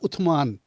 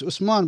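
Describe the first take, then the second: First: The middle consonant is a 'th' sound. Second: The middle consonant is an 's' sound. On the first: This matches how it is written. "but it's not Uthman. T H" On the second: This is how people commonly say it. "It's Usman"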